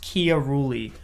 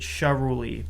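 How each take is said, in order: First: The surname is said the Italian way. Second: The surname is said the family's way. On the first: The speaker calls it right. "Technically, it's pronounced Chiarulli" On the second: The speaker calls it wrong. "a lot of my family pronounces it Charuli"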